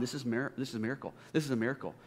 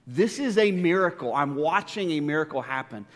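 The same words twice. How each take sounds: First: Soft, awed murmur to himself; hushed inner thought. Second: The third repeat comes out fuller, amazed; rising wonder. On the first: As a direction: say it quietly as if thinking aloud. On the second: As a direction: let the awe break out. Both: Retold or imitated. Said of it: "I'm just thinking in my mind".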